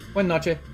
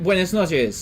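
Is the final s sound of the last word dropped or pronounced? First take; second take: dropped; pronounced. First: The final s sound is dropped. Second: The final s sound is clearly pronounced.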